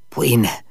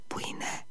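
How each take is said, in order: First: Said in the usual way. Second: Breathless frightened whisper; a hushed anxious question. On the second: Acted. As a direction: whisper it, afraid of being overheard. Frightened man asks where she is.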